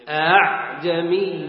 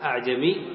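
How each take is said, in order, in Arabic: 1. الهمزة الثانية تُسهَّل وتُخفَّف. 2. تُنطق همزة واحدة فقط. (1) "تسهل الهمزة الثانية" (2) "لا تنطق همزة واحدة"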